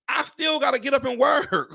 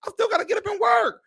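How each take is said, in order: First: Exasperated shout. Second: Squealing repeat. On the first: Ranting to viewers about having to keep working, exasperated shout. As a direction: belt it out in disbelief. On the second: Repeating her complaint to viewers, higher and faster squeal. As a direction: shriek it the second time, faster. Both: Real, not acted.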